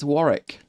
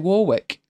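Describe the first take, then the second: First: The middle W is silent. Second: The middle W is sounded. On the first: The speaker calls it right. "It's Warwick" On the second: The speaker calls it wrong. "a lot of people look at it and say Warwick. And it's not. There is a W in the middle of it"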